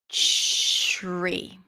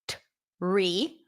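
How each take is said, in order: First: The word begins with a ch-like sound. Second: The word begins with a clear t sound. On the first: The speaker calls it right. "the T becomes a ch sound, as in chicken" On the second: The speaker calls it wrong. "It's not t-re"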